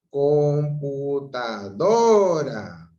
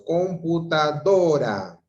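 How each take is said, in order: First: "computadora" very slow, stretched, with a long loud swell on "do"; exaggerated stress on DO. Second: "computadora" drawn out slowly, louder on "do"; stress on DORA. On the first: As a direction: hold back "computa", then lift and lengthen "DOOO-ra". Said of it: "dónde en este caso empieza a levantarse el". ("computadora" muy lenta, alargando y levantando la voz en "do") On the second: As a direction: lean on the "do" in "computadora". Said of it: "lleva mayor fuerza de voz". ("computadora" con más fuerza de voz en "do") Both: Shown as a demonstration.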